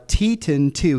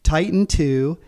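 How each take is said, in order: First: Teton said slowly as TEE-ton, first take; slow TEE-ton for the name Teton before correcting it; first reading of the name. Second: Titan said as TIE-tan with a long i; corrected pronunciation. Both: Shown as a demonstration. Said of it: "he would pronounce it Titan here".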